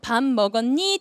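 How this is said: A Seoul accent with a sharp final rise. "서울 애들은 ... 뒤를 쳐 올려"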